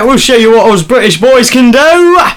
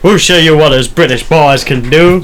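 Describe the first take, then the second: First: It is spoken in a Cockney British accent. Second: It is spoken in an American accent. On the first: "Can you do Cockney?" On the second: "You said that in American accent"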